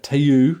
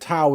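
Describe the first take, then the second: First: The word is said as 'teu'. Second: The word is said as 'tau'. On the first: The speaker calls it wrong. "would get Teu" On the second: The speaker calls it right. "Tau is when the race is T A U"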